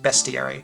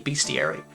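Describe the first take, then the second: First: The first syllable sounds like 'best'. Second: The first syllable sounds like 'beast'. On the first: "I realized it was B E S T. So that's like I changed my pronunciation to bestiary" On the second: "I thought it was bestiary because it has the word beast in it"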